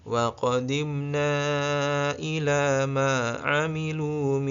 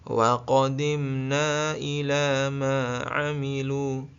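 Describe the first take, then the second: No difference in how they are said.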